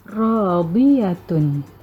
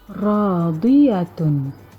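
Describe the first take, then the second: Both takes have the same delivery.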